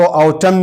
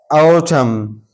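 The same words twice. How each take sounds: First: ऑटम with an N added after the M; wrongly sounded N. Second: ऑटम closed on M, no N after it; silent N. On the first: Teacher shows learners what to avoid, ऑटम with N sounded. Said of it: "इसको ऑटम नहीं पढ़ेंगे". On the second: Teacher repeats the word for learners, ऑटम with silent N. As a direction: end ऑटम on the M sound. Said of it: "एम पर आवाज़ ख़त्म कर देंगे". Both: Shown as a demonstration.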